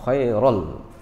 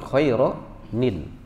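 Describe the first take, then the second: First: The words join directly without an added nasal syllable. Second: The words join with an added syllable containing n. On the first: "Ini kan khairal" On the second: "tapi khairanil, karena ketemu dua sukun"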